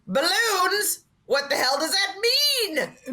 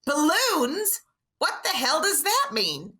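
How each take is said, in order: First: High, slow yell of bafflement; imitated dad yelling in confusion; mock yell. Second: High, drawn-out baffled question; mock bafflement, pitched up; scripted actress line. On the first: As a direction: blurt out the line as dad did. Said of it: "he yells it out". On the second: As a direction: deliver it as a puzzled scripted line. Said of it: "Kim's line is".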